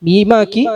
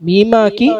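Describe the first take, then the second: No difference in how they are said.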